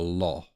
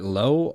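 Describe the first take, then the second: First: The vowel sounds like the word law. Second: The vowel sounds like the word low. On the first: The speaker calls it right. "where it's more like a law" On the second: The speaker calls it wrong. "I'm saying it as like L O W, like high, low"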